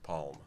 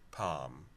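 First: It is said with a clear L sound. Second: It is said with no L sound. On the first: "she definitely puts that L in there" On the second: "Think of the pomegranate juice"

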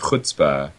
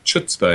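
First: It begins with a throaty velar fricative. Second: It begins with a 'ch' as in church. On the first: The speaker calls it right. "it brought its consonant with it" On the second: The speaker calls it wrong. "was sort of dismissed because of it, because it was such a dumb error to make"

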